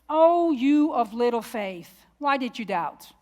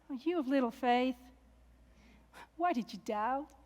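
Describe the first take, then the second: First: It is said in a harsh, scolding tone. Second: It is said in a gentle, warm tone.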